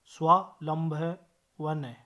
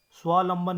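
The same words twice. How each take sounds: First: स्वावलंबन slowly broken into pieces; correct pronunciation. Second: स्वावलंबन run together without middle व; wrong pronunciation. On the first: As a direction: spell out स्वावलंबन part by part, slowly. (स्वावलंबन, धीरे-धीरे तोड़कर) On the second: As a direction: say स्वावलंबन as 'svaa-lamban'. (स्वावलंबन का गलत, छोटा रूप) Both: Shown as a demonstration. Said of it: "स्वावलंबन नहीं".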